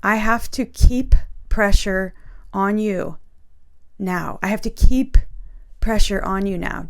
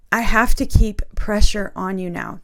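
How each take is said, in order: First: Said in the usual way. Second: Getting emotional. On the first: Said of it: "read it straight out of my journal". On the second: Real, not acted. Repeating the Spirit's words to viewers, getting emotional. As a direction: voice thick with real emotion, a little louder. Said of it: "Oh, I'm getting emotional".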